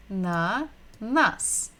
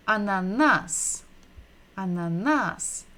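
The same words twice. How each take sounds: First: "ananas" slowly split into a, na, nas; syllable by syllable. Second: "Ananas" as one word, stressed on the last NAS; stress on final syllable. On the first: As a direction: sound out "ananas" with a gap after each syllable. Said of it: "listen and repeat". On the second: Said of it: "we're stressing the final syllable". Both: Shown as a demonstration.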